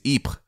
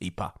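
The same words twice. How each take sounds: First: It is said with a French pronunciation. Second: It is said with a Flemish pronunciation. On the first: This is the name French speakers use. "The French pronunciation is Ypres" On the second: This is the name the locals use. "the name the locals use, which is the Flemish name"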